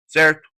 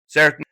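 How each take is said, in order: Both takes have the same delivery.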